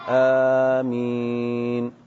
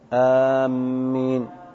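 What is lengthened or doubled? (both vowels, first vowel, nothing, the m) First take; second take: both vowels; the m. First: Both the first and second vowels are drawn out. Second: The m is doubled in the middle of the word. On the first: The speaker calls it right. "بمد الهمزة والميم" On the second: The speaker calls it wrong. "إذا شددت فهذا تحريف"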